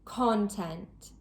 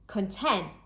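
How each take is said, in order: First: The stress is on the first syllable. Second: The stress is on the second syllable. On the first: It is used as a noun. "with two-syllable nouns, the stress is placed on the first syllable" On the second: It is used as a verb or adjective. "with two-syllable verbs or adjectives, the stress is usually placed on the second syllable"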